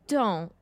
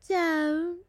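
First: It is said in a plain reading voice. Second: It is crooned in Moaning Myrtle's voice.

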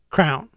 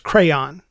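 First: The word is said as one syllable. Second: The word is said as two syllables. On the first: The speaker calls it wrong. "she says it just like the word crown" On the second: The speaker calls it right. "It's a two-syllable word"

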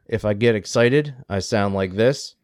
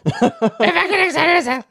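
First: It is said in a flat, unexcited voice. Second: It is said in a lively, excited voice.

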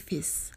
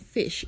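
First: The word ends with an s sound. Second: The word ends with an sh sound. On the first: "They say fiss" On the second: "They have trouble saying fish"

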